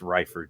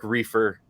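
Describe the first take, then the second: First: The first vowel sounds like 'eye'. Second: The first vowel sounds like 'ee'. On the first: The speaker calls it right. "It's Reifer" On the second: The speaker calls it wrong. "not Derek Reefer. Don't say it that way"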